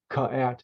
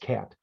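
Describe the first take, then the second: First: The k gets an extra vowel before the rest. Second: The word is blended smoothly as one syllable. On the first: The speaker calls it wrong. "you don't say ka at" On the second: The speaker calls it right. "It's cat"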